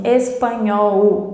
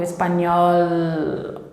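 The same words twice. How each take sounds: First: "espanhol" with the final L turned into a U sound. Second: "espanhol" drawn out on a true tongue-tip L; slow model "espanhol", holding the final L; curled final L. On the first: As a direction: say "espanhol" wrongly, ending like "-óu". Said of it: "com som de U". ("espanhol" com o L final soando como U) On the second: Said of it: "eu tenho que fazer essa volta". ("espanhol" com o L final bem marcado, língua enrolada) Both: Shown as a demonstration.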